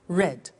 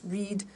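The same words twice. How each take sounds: First: The vowel is short, as in 'red'. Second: The vowel is long, as in 'reed'. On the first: It is the past tense. "the pronunciation changes in the past tense" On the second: It is the present tense. "read and read are written exactly the same, but the pronunciation changes in the past tense"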